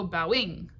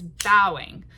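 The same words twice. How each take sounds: First: "bowing" with the weight moved onto the final -ING; wrong stress bow-ING. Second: "bowing" hit loud on BOW, light "-ing"; natural stress BOW-ing. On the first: Teacher shows what we don't go, bow-ING stressed at the end. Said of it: "We don't go bowing". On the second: Teacher shows the natural word, BOW-ing stressed up front. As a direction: punch the first syllable of "bowing". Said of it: "It's bowing". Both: Shown as a demonstration.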